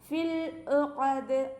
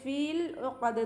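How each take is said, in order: First: The vowel in 'fi' is cut short. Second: The vowel in 'fi' is held long. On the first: The speaker calls it right. "യാമദിന് നമ്മൾ കട്ട് ചെയ്യും" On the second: The speaker calls it wrong. "എന്നങ്ങനെ പാരായണം ചെയ്യില്ല"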